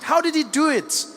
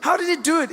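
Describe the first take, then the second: First: Shocked. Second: Higher shocked repeat; a touch more incredulous. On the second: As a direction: ask again in mounting disbelief. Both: Retold or imitated. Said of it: "People are shocked".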